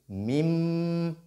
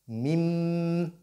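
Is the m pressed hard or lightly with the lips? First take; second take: hard; hard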